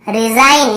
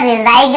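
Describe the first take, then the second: First: रिजाइन ending on plain n; correct silent g. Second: रिजाइन said "ri-zaig-na"; wrong sounded g. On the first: Teacher models for learners, रिजाइन without g. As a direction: say रिजाइन as "ri-zain", no g. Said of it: "ग को नहीं पढ़ रहे". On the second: Teacher shows the misreading, रिजाइन as "ri-zaig-na". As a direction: sound a hard g before n in रिजाइन. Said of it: "ऐसे नहीं पढ़ रहे". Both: Shown as a demonstration.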